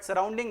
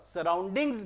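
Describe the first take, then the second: First: सराउंडिंग ending on NG, without an S; singular, no final S. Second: सराउंडिंग्स with a clear final Z sound; plural S ending. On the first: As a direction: say सराउंडिंग with no plural Z sound. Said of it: "सराउंडिंग noun नहीं होता". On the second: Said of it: "सराउंडिंग्स noun होता है". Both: Shown as a demonstration.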